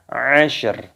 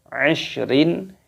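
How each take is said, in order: First: The word ends on a bare r sound. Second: The word ends with an added -in sound. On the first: The reader stops at this point. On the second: The reader continues without stopping.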